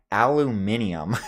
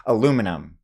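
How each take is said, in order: First: "aluminium" as al-oo-MIN-ee-um; British pronunciation. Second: "Aluminum" as uh-LOO-mi-num; American pronunciation. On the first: Retold or imitated. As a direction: stress MIN in "aluminium" and add the extra syllable. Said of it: "That's like a British thing". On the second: Shown as a demonstration. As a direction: stress LOO in "Aluminum", four syllables. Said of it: "the correct way to say it".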